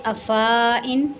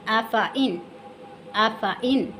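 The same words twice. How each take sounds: First: अफ़ाइन with fa stretched to faa; wrong long vowel. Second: अफ़ाइन with short fa and separate in; correct short vowel. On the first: Teacher demonstrates the misreading, long faa. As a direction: lengthen the middle of अफ़ाइन. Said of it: "नहीं पढ़ेंगे". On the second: Teacher repeats the right reading, short fa. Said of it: "क्या पढ़ेंगे". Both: Shown as a demonstration.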